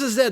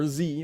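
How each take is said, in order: First: The letter is said as zed, non-American. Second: The letter is said as zee, American.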